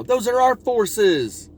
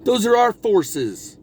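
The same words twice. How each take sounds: First: Slow, much higher, "our" hit hard; stress on our. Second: Slow, higher line with "our" leaned on; stress on our. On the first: Acted. Speaker echoing Hillary to Joe, slow and high with "our" stressed. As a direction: lift it up and land on "our". Repeats Hillary's line, pressing it. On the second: Retold or imitated. Hillary telling Joe the forces are hers, slow and pointed. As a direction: weigh every word, pressing "our". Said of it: "Hillary turns to him and says".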